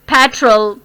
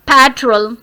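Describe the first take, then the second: No difference in how they are said.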